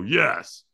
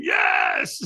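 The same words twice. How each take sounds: First: Said in the usual way. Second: Very high-pitched, all-out yell; retold scream. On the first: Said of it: "wasn't in a peak state". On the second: Firewalker throws hands up answering trainer, full scream. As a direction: scream it in peak state. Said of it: "I scream".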